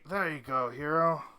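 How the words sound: The voice is put on deep and low. The speaker calls it wrong.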